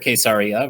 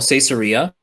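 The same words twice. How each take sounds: First: The name is said with a Hebrew pronunciation. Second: The name is said with an English pronunciation.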